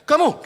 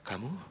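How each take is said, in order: First: It is said in a forceful, commanding voice. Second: It is said in a weak, timid voice. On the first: The speaker has authority. The speaker calls it right. "Kalau saudara jenderal punya kuasa ngomongnya beda. Kamu, gitu ya?" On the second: The speaker lacks authority. The speaker calls it wrong. "enggak gitu ya"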